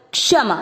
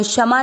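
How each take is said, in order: First: क्षमा with a clear क before ष; correct pronunciation. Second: क्षमा said as shama, dropping the क sound; wrong pronunciation. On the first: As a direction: say क्षमा as k-shama. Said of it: "इसको कैसे बोलना है". (क्षमा में क का उच्चारण साफ़) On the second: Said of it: "क्षमा नहीं बोलना". (क्षमा में क छोड़कर गलत उच्चारण) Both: Shown as a demonstration.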